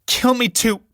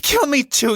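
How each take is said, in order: First: Screaming. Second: Even higher, louder scream; second cry, pitched higher still. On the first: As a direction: shriek it at him. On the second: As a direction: shriek it again, rising further. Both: Acted. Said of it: "Julie, screaming".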